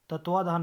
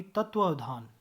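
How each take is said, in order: First: तत्वाधान missing its middle व; wrong pronunciation. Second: तत्वावधान with second व sounded; correct pronunciation. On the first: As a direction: skip the 'va' before धान in तत्वाधान. (तत्वाधान, गलत छोटा रूप) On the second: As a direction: fit 'av' before धान in तत्वावधान. (तत्वावधान का पूरा उच्चारण) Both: Shown as a demonstration. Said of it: "तत्वाधान नहीं".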